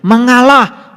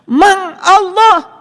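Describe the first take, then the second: First: The word is said at normal speed. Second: The word is said slowly, syllable by syllable.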